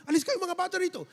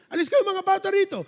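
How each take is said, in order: First: Quick shooing. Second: Put-on higher, louder shooing of the children; shooing shout. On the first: Acted. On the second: Disciples shouting the children away from Jesus, loud shoo. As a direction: drive the kids away with a sharp yell. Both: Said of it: "sabi ng mga disipulo".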